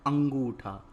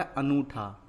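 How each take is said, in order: First: अंगूठा with a clear ng before the oo; अंगूठा as "angootha"; correct word shown. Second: अनूठा said without an ng sound; अनूठा as "anootha"; wrong word shown. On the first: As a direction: put the nasal and g into अंगूठा. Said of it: "क्या होता है". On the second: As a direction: say अनूठा with a simple n before the oo. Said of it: "तो अनूठा नहीं होता". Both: Shown as a demonstration.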